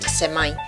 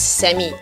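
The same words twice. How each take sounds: First: Semi is pronounced a non-Singaporean way. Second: Semi is pronounced the Singaporean way. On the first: This is how people in Singapore do not say it. "not semi" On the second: This is how people in Singapore say it. "Over here in Singapore we pronounce as semi"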